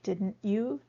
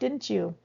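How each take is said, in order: First: The t and y stay separate sounds. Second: The t and y merge into a ch sound. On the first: "rather than you did your homework, didn't you?" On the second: "It's common to hear that"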